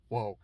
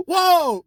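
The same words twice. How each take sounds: First: Whoa much softer, lower, almost breathed; hushed whoa. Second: « whoa » lancé fort et haut, surpris; mock loud whoa. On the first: Shown as a demonstration. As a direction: redo it softly, under the breath. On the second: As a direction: shout it out like a stunned guy. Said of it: "Jake goes".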